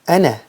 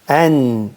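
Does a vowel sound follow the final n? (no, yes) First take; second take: yes; no. First: An extra vowel is added after the n sound. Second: The syllable ends cleanly on the n sound. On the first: The speaker calls it wrong. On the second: The speaker calls it right.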